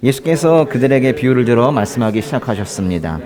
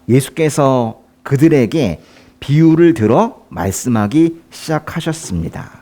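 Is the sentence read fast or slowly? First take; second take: fast; slowly. First: The sentence is read quickly. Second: The sentence is read slowly. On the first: The speaker calls it wrong. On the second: The speaker calls it right.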